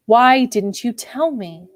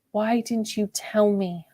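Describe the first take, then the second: First: Said in the usual way. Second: Soft, slow hushed plea; a quiet, drawn-out question; whispered. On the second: A narrator's reading. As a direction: ask it softly and slowly, close to him. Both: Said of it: "I whispered".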